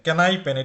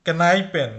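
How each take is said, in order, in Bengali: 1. শব্দটি k শব্দ দিয়ে শুরু হয়। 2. শব্দটি k শব্দ দিয়ে শুরু হয়।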